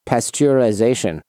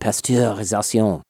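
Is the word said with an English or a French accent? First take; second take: English; French. First: It is said with a plain English accent. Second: It is said with a French accent.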